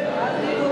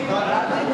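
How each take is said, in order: No difference in how they are said.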